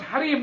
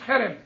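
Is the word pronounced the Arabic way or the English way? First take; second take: Arabic; English. First: The word has an Arabic pronunciation. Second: The word has an English pronunciation. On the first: The speaker calls it right. "it's called harem, Harem is a nice Arabic word" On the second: The speaker calls it wrong. "not harem"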